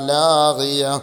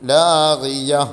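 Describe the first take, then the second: First: The word ends in a silent h sound. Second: The word ends in a silent h sound.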